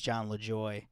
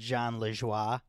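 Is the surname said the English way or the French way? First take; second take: English; French. First: The surname is said with an English pronunciation. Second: The surname is said with a French pronunciation. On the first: The speaker calls it wrong. "a lot of people think it's John LeJoy" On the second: The speaker calls it right. "it's pronounced Jean Lejoie"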